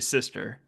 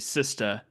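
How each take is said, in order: First: It is said in a plain, unmarked style. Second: It is said in a Black American slang style. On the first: It sounds like the character himself. The speaker calls it right. "he would say sister" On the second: It sounds like the character's actor, not the character. The speaker calls it wrong.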